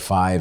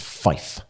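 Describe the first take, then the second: First: The word ends with a v sound. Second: The word ends with an f sound. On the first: It is the everyday way of saying the number. "if you say five, it sounds like something else" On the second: It is the radio way pilots say the number. "Fife, if you're a pilot. So it's Fife. we don't say the V"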